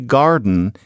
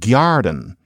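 First: It is said in an ordinary American accent. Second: It is said in an old Charleston accent. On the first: "you didn't say garden in Charleston" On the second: "you said garden. That to them sounded high class"

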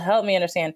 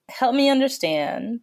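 First: It sounds dismissive and sarcastic. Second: It sounds sincere and genuinely curious. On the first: The speaker doubts the other view has any sense. The speaker calls it wrong. "not with the tone of like, well" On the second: The speaker really wants to learn the other view. The speaker calls it right. "But a true"

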